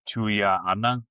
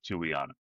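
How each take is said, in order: First: The name is said in its full Samoan form. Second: The name is said in a shortened, simplified form. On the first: This is how it is said in Samoa. "in Samoa would be pronounced Tuia Anang" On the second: This is how it is given to English speakers.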